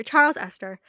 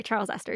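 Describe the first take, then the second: First: Loud, grand dramatic announcement; dramatic reveal. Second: Said in the usual way. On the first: Acted. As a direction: proclaim "Charles Esther" like a big reveal. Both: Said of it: "I just love the drama of how you said it".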